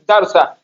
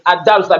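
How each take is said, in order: First: The word begins directly on the d sound. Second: The word begins with an audible 'a' vowel. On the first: The word is read within a phrase. "I didn't pronounce it" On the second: The word stands alone. "because I'm pronouncing it alone"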